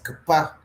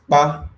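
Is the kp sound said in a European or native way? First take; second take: European; native. First: The kp sound is said the European way. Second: The kp sound is said the native way. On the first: The speaker is not a real native speaker. The speaker calls it wrong. "by the time we pronounce it like the uh, the Europeans" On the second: The speaker is a real native speaker. The speaker calls it right. "Is pronounced ba"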